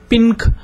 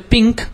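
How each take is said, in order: First: The n is pronounced fully and separately. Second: The n blends into the following k sound. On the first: The speaker calls it wrong. "you don't say pink ... You don't pronounce n properly" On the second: The speaker calls it right. "Just like you say pink"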